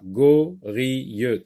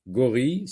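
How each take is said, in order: First: "gorille" broken into go, ri, ye; teacher sectioning "gorille" as go-ri-ye; split into syllables. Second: Said in the usual way. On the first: Shown as a demonstration. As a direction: say "gorille" in three separate syllables, sounding the final one. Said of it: "si on sectionne, euh, le mot en syllabes". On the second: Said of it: "si on sectionne le mot en syllabes".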